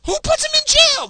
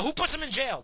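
First: The same question screamed, far higher and louder; furious shout. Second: A heated demand, higher than usual; asking angrily, not yet at full yell; angry question. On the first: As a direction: explode on the repeat, full yell. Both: Real, not acted. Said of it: "Yeah, I'm worked up".

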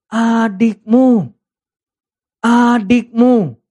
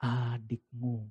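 First: Adikmu drawn out very slowly, louder and higher; stress on adikmu. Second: Very soft, slow adikmu, barely voiced; gentle correction. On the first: Acted. Father pressing the elder son about his brother, slow and emphatic. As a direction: lean hard on each adikmu. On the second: Father gently handing the brother back to the elder son. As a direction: say adikmu softly and slowly, lowering the tone. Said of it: "Dia kembalikan".

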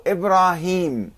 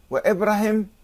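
First: إبراهيم drawn out as Ibraaheem; إبراهيم with a long final "-heem"; long vowels. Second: إبراهيم said as Ibrahem, no long ee; إبراهيم cut short at the end, "-hem"; short final vowel. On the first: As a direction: stretch the aa and ee in إبراهيم. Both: Shown as a demonstration. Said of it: "يعني المد".

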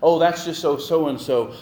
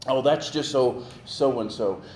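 First: The same excuse pushed out louder; hammed-up louder excuse, with a little more edge; louder mock excuse for bad behavior. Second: A light imitation of someone shrugging it off; breezy made-up excuse, lightly voiced; mild mock excuse, said as if it explains everything. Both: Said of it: "we make all these excuses".

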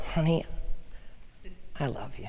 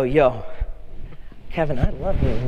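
First: Much softer, tender and intimate; tender to wife. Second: Casual buddy-style, matter-of-fact; casual bro greeting. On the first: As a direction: say it softly to your wife. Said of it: "And I go". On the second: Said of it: "I go up to Kevin and I go". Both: Retold or imitated.

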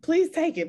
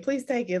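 First: Higher and louder, pressing the point; emphatic plea. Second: Said in the usual way. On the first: Real, not acted. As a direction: really urge her to take it. Urging host to keep the idea.

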